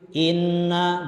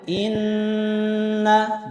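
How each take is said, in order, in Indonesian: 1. Huruf n sengau sama sekali tidak ditahan. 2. Huruf n sengau ditahan tiga ketukan tambahan. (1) "belum tahan" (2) "Kalau satu setengah alif, tambah lagi"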